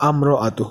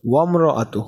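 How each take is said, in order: First: "আম্র আতু" starting on a clear "আ" vowel; initial alif pronounced. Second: "ওয়াম্র আতু" with waw running straight into m; alif skipped. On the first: Teacher showing the word without waw, "আম্র আতু" begun on আ. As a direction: open "আম্র আতু" on আ, no w before it. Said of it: "যদি আমি ওয়াওটা বাদ দিতাম". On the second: Teacher showing learners the skipped alif, "ওয়াম্র আতু" joined from the w. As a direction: glide from w into "ওয়াম্র আতু", no separate আ. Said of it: "আমরা আলিফটাকে skip করে ফেলতে পারবো". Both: Shown as a demonstration.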